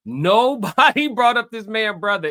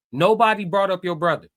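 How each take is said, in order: First: Nobody stretched out, loud and rising; exasperated stress on Nobody. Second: Said in the usual way. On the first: Real, not acted. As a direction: blast out Nobody in disbelief. Repeats it in exasperation, louder.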